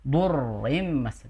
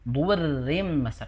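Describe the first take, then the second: First: The r sound is heavy and thick. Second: The r sound is light and thin. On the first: The speaker calls it wrong. "dengan menebalkan huruf ro" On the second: The speaker calls it right. "langsung tipis"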